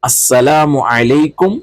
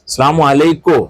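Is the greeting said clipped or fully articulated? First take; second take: full; clipped. First: It is said carefully with every sound pronounced. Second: It is said quickly with final sounds dropped. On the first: The speaker calls it right. "വളരെ ശ്രദ്ധിച്ചുകൊണ്ട്" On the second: The speaker calls it wrong. "നമുക്കൊക്കെ സ്പീഡാണ്"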